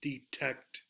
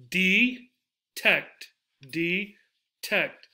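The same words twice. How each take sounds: First: Detect with TECT stressed, said softly and low; stress on second syllable. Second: Detect in two beats, "dee ... tect"; detect, slowly pulled apart syllable by syllable; split into syllables. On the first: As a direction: quietly lean on TECT in detect. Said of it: "It's in the second syllable". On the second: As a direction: clear pause inside detect. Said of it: "Where are they?". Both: Shown as a demonstration.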